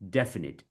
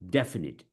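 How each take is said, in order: First: The stress falls on the first syllable. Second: The stress falls on the first syllable.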